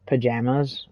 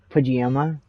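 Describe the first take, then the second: First: Said in the usual way. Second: "pajama" drawn out in imitation of a friend; mock mispronounced "pajama", stretched out; friend's odd pajama. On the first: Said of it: "if she's saying, like, pajamas". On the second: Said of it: "and shit like that".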